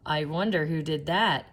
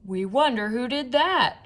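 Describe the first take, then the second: First: Said in the usual way. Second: Higher, louder group question; crowd shout. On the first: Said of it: "asked another fan". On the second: A narrator's reading. Fans in the bleachers shouting together, higher and louder. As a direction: call it out together from the stands. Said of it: "shouted the fans".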